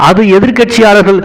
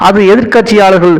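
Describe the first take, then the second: No difference in how they are said.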